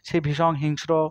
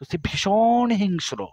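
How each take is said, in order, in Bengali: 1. এটা একঘেয়ে ভাবে, ছন্দ ছাড়া বলা হয়েছে। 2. এটা ছন্দ আর বিভিন্ন স্বর দিয়ে বলা হয়েছে।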